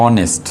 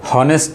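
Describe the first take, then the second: First: অনেস্ট starting straight on the O vowel, no H; silent h. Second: হনেস্ট with the H sounded at the start; wrong way. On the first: (অনেস্ট, এইচ ছাড়া, অ দিয়ে শুরু) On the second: (হনেস্ট, শুরুতে এইচ উচ্চারণ করে, ভুলভাবে) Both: Shown as a demonstration. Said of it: "এটার উচ্চারণটা হলো অনেস্ট".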